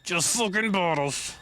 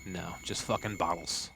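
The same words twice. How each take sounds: First: High, drawn-out put-on voice; mocking repeat. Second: Low, soft grumble; muttered disappointment. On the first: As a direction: stretch it out high in a silly voice. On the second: Real, not acted. Disappointed find, first muttered take.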